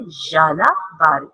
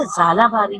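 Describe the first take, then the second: First: याला बारी with a clear y; right pronunciation. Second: जाला बारी with j, quick and careless; wrong pronunciation. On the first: Teacher gives the right याला बारी. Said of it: "right pronunciation है". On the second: Teacher imitates kids saying जाला बारी. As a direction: rush out जाला बारी as the mistake. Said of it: "right pronunciation नहीं है". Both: Shown as a demonstration.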